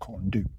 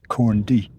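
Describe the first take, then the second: First: The second word ends with an 'oo' sound. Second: The second word ends with an 'ee' sound. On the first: The speaker calls it wrong. "not corn do" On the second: The speaker calls it right. "the U is an E, so it's actually corn D"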